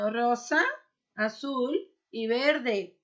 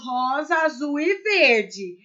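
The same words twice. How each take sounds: First: The words have a Spanish pronunciation. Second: The words have a Portuguese pronunciation. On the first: The speaker calls it right. "Eu estou dizendo" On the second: The speaker calls it wrong. "mas eu não tô falando"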